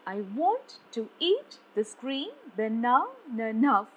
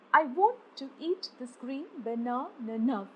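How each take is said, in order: First: "I WANT to EAT this GREEN baNAna NOW", each stressed beat swooping up; iambic stress. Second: Said in the usual way. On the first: Shown as a demonstration. Teacher showing how to read iambs, stress on WANT, EAT, GREEN, NA, NOW. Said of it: "this is how you read an unstressed followed by a stressed".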